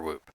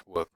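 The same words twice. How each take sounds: First: Long, tense oo in the middle of Whoop; long-vowel pronunciation. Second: Short, lax vowel in the middle of Whoop; short-vowel pronunciation. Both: Shown as a demonstration. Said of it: "I don't know whether it's".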